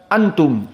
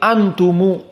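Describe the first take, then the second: First: The word ends on the consonant 'm'. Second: The word ends with an added 'u' vowel. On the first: "Tidak bisa membaca antum" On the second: "tetapi antumu"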